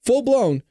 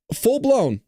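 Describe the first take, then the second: No difference in how they are said.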